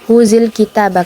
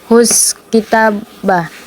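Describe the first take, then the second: First: The first word ends with a linking 'i' vowel. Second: The first word ends without a linking vowel. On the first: The speaker calls it right. "Dia dibaca huzil kitabah" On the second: The speaker calls it wrong. "bukan huz kitabah"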